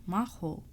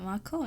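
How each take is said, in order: First: "Maho" said with an h, falling; "Maho" firmly corrected. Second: "Mako" said with a k, asked with a rise; "Mako" with a hard k sound; misreading Mako. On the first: Shown as a demonstration. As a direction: settle on "Maho", h not k. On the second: Retold or imitated. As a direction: read it as "Mako", questioning. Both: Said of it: "I didn't say Mako".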